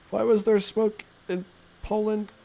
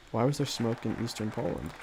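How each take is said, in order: First: High, slow mock-innocent voice; high silly put-on question; weird voice for chat. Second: Said in the usual way. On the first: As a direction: ask it in a goofy put-on voice. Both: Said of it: "read your voices aloud in a very weird way".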